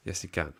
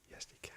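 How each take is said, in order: First: Said in the usual way. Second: Breathy whispered yes, he can; whispering. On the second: Pretend. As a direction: whisper the answer under breath. Answering his own question jokingly.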